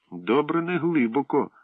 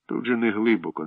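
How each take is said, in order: First: Mocking echo. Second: Reassuring. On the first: Pri mocking Slavko. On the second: Acted. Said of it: "заспокоїв".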